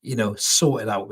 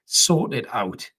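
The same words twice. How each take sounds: First: Said in the usual way. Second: "Sort it out" said slowly, each word weighted; firm, slow "Sort it out" aimed at the manager; slow emphatic repeat. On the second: Real, not acted. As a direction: drag out "Sort it out" to hammer it home.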